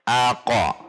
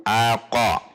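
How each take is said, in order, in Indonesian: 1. Bunyi vokal penuh mengikuti q terakhir. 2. Bunyi vokal penuh mengikuti q terakhir.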